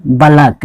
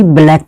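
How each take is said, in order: First: "बलक" as two syllables, ba-LAK; "बलक" ending in -lak, not -laik; taught pronunciation "बलक". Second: "ब्लैक" as one syllable, BLAIK; wrong pronunciation "ब्लैक". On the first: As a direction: say "बलक" with a vowel after the b. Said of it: "इसको हम क्या पढ़ते हैं". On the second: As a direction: say "ब्लैक" with bl together and an "ai" vowel. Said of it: "ना कि ब्लैक पढ़ना है". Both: Shown as a demonstration.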